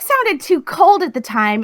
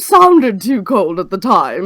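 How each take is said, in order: First: It is delivered in a bright, peppy way. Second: It is delivered in a posh, upper-class way. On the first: "just peppy" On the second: "upper class"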